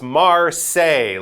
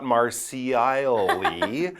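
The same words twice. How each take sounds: First: The L sound in the middle is silent. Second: The L sound in the middle is pronounced. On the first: The speaker calls it right. "Those L's, especially in the middle, they are silent" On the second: The speaker calls it wrong. "So it's not Marseille"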